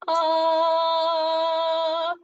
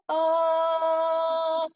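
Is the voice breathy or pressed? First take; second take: breathy; breathy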